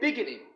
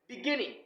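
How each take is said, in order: First: The stress is on the first syllable. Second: The stress is on the second syllable. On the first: The speaker calls it wrong. "Don't say beginning" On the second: The speaker calls it right. "G should, should be stressed"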